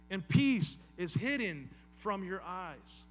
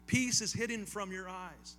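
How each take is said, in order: First: Slow, louder, grieving line; sorrowful lament. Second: Said in the usual way. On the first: Acted. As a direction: let "peace" ache, drawn slowly. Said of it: "think of the tone of voice he's using". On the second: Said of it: "That's heartbreaking".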